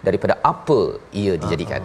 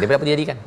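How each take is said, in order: First: The phrase is said slowly with long drawn vowels. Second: The phrase is said quickly and clipped short. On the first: "dia apa tu dia panjang betul" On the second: "sampaikan baca pun pendek, pendek"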